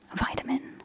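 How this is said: It is said with an Australian pronunciation.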